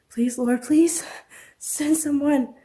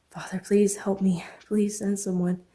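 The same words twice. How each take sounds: First: High, loud crying out to God; desperate plea. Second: Whispered prayer. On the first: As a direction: beg for rescue, rising in pitch. Trapped woman pleading in prayer. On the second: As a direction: pray under her breath, slowly. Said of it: "She continued to pray". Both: Acted.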